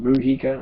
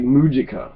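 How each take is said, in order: First: The j is said as an h-like sound. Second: The j is said like an English j. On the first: The speaker calls it right. "We try to say some other letter" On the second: The speaker calls it wrong. "It looks like Mujica"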